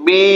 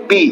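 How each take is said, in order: First: বি with its vowel held long; a lengthened, sustained বি; drawn-out vowel. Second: বি said short and straight; a quick, brief বি; short unstretched vowel. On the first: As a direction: stretch out the vowel of বি for learners. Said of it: "এটা আমরা টানছি কি জন্য?". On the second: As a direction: keep the vowel of বি brief, no stretching. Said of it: "এটা আসলে আমরা কিভাবে পড়বো?". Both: Shown as a demonstration.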